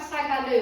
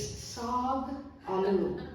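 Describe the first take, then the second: First: The A vowels are short and clipped. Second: The A vowels are drawn out long. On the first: The speaker calls it wrong. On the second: The speaker calls it right.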